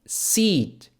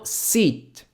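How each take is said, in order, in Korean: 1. 마지막 T는 거의 안 들려요. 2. 마지막 T는 거의 안 들려요.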